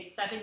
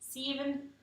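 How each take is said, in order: First: The word is said in the speaker's usual accent. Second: The word is said in an imitated local accent. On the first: "when you say seven" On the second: "you guys say Steven"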